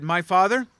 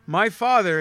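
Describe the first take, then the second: First: "My father?" as a rising question, a touch louder. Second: "My father." said formally, falling and louder. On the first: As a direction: ask "father" with a lifting end. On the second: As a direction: state "father" with a solemn drop. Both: Shown as a demonstration. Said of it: "Do you know any eight-year-olds that talk like that?".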